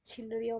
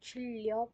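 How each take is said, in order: First: The middle consonant is pronounced as an N. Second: The middle consonant is pronounced as an L. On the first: The speaker calls it wrong. "छिंडरिया मत पढ़ लेना" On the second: The speaker calls it right. "इसको चिड़िया पढ़ने वाले हो"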